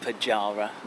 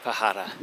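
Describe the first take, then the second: First: The middle consonant is a hard j sound. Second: The middle consonant is a soft h sound. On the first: The speaker calls it wrong. "Not Pajara" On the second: The speaker calls it right. "so I've just heard someone say it"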